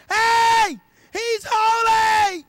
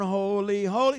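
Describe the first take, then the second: First: High, loud, slow shout; angel shouting. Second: Said in the usual way. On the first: Acted. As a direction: call out across to another angel. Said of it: "they're screaming it to each other". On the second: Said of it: "We think they're going".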